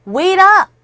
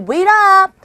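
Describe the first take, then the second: First: Calling out. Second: High, loud call to a friend walking off. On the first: Teacher acts out a friend calling. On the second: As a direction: shout it after a friend who is leaving. Repeats the call. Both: Shown as a demonstration.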